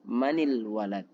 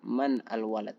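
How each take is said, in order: First: The n takes an i vowel, linking into il. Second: The n is followed by al with no vowel. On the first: The speaker calls it right. "tapi manil walad" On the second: The speaker calls it wrong. "bukan man al walad"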